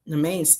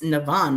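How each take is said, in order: First: The name is said as 'nem-ain'. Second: The name is said as 'nav-an'. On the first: The speaker calls it wrong. "I thought the name was Nemain" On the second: The speaker calls it right. "that's how you pronounce that?"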